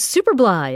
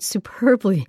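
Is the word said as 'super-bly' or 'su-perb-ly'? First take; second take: super-bly; su-perb-ly. First: The word is split as 'super' plus 'bly'. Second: The word is said as 'su-perb-ly'. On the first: The speaker calls it wrong. "A listener thought she was super bly" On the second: The speaker calls it right. "after the word superbly"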